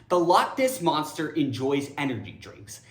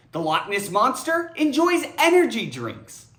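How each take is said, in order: First: Said in the usual way. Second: Giggling through the sentence; can barely keep a straight face; amused read, laughter breaking in; laughing. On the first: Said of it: "this sentence ends with a quote". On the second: Shown as a demonstration. Read with laugh vs plain reread.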